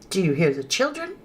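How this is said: It is said as an asking question.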